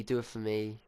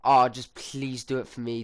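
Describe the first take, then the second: First: Softer repeated plea, trailing; a touch of quiet begging; soft pleading. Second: Louder mock pleading nan; imitating a pleading nan. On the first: Retold or imitated. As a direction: ask again more gently. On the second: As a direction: beg a little, lightly voiced. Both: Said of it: "instantly she goes".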